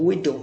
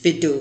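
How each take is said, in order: First: "widow" with a clean rounded w, slow; correct w sound. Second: "widow" said as vidow with a v; wrong v sound. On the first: Teacher gives students the correct widow. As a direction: open "widow" on a true w glide. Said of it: "the correct pronunciation is widow". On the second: Teacher shows students the mistaken vidow. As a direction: start "widow" on a buzzing v. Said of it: "widow is wrong". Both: Shown as a demonstration.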